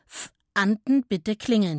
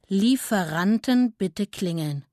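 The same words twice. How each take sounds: First: Langsam abgelesen, betont auf dem unvollständigen „F-Anten“; vom Schild abgelesen. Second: Langsam abgelesen, „Lieferanten“ vollständig und betont; langsam vorgelesen. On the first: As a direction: lies „F-Anten“ gedehnt wie ein halb verdecktes Wort. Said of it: "Er zeigte mit dem Rüssel auf das Schild". (langsam vom Schild ablesen, „F-Anten“ ohne Wortanfang) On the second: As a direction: lies „Lieferanten“ Silbe für Silbe deutlich vor. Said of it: "Der kleine Elefant las vor". (langsam vorlesen, Betonung auf „Lieferanten“) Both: A narrator's reading.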